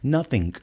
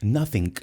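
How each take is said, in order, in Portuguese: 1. A palavra termina com um som de k audível. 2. A palavra termina com um som de k audível.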